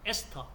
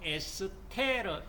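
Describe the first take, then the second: First: It has two syllables, ending in 'teo'. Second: It has three syllables, ending in 'reu'. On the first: The speaker calls it right. "영어식 발음으로 에스터" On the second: The speaker calls it wrong. "독일식 발음으로 에스테르 하지 마시고"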